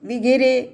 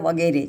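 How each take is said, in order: First: The first vowel is an 'i' sound. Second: The first vowel is an 'a' sound. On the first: The speaker calls it wrong. "આપણે ખોટું બોલીએ છીએ" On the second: The speaker calls it right. "મૂળ શબ્દ વગેરે છે"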